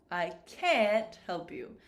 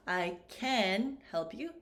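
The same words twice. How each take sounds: First: "can't" with a full, stressed vowel, slowly; produced vowel. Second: "can" pronounced like ken, slow demo; slowly, with "can" sounding like ken. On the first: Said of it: "this vowel sound is more produced". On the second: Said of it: "sounds like ken". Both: Shown as a demonstration.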